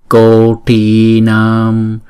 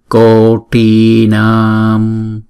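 Both takes have the same delivery.

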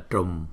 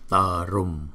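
First: The start is one blended tr sound. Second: The start splits into a t then r. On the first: The speaker calls it wrong. "không phải là trùm" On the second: The speaker calls it right. "mà là tờ rùm"

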